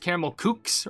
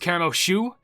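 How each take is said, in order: First: The second word starts with a k sound. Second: The second word starts with an sh sound. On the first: The speaker calls it wrong. "I thought it was" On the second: The speaker calls it right. "it's more like S H O U"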